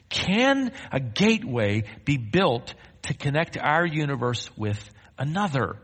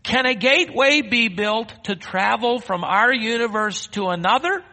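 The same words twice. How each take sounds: First: Deliberate reading with pauses; measured rhetorical question. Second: High, raised preaching voice; ringing, high-pitched challenge; impassioned rhetorical question. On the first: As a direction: read it out in measured phrases. Reads article's question aloud to congregation. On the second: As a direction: throw the question out to the whole congregation. Preacher re-asks question with full force. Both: Acted.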